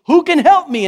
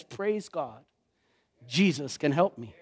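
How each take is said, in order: First: Loud, high, anguished plea; desperate cry. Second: Soft, low, settled relief; relieved answer. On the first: Preacher voicing Paul's desperate cry, loud and high. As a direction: cry out for rescue with nothing left. Paul crying out in despair. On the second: Preacher voicing Paul's relief after the cry, soft and low. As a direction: let the answer land quietly. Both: Retold or imitated.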